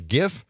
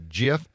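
First: The word starts with a hard G sound. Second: The word starts with a soft G sound. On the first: The speaker calls it wrong. "just keep saying it wrong" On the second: The speaker calls it right. "I said it the right way"

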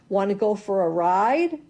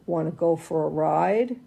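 First: It is said in a bright, cheerful tune. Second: It is said in a dark, ominous tune. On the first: The dog is going for a fun ride. "So the good notes say" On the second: The dog is going to the vet. "And the bad notes say"

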